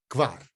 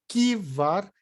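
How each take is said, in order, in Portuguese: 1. O K e o V são unidos, sem vogal. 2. Uma vogal separa o K do V. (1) "Tem que falar o K com o V junto" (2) "Não pode falar que var"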